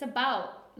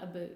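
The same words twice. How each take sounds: First: "about" with the Canadian ou vowel. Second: "a boot" with a long oo; wrong "a boot". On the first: Canadian correcting her friend, own "about" with ou vowel. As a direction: say "about" firmly, never with oo. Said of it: "It's about, not a boot". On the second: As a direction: turn "about" into "a boot". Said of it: "not a boot". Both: Shown as a demonstration.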